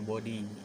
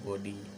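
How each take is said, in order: Both takes have the same delivery.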